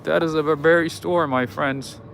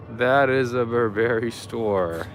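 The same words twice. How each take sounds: First: Said in the usual way. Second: Put-on slow, drawn-out British accent. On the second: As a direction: say it slowly as a playful Brit. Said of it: "that's me doing a British accent".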